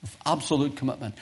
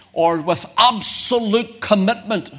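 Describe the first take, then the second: First: Softer, quicker echo; hushed repeat. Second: "absolute" raised high and punched; emphatic ABSOLUTE. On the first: Preacher echoing his own point to the congregation, softly. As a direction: drop the volume and repeat it quickly. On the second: Preacher pressing the congregation on commitment, emphatic. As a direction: drive home the word "absolute", pitched up. Emphatic statement, then quiet repeat. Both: Real, not acted.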